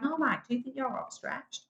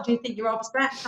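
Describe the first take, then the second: First: Higher, softer retort with the stress on "you"; question turned back. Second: Said in the usual way. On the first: Retold or imitated. Contestant retorts to interviewer Mike, stress on "you". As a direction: throw "you" back at him in "do you think". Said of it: "I'm like". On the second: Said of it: "what I told Mike as well".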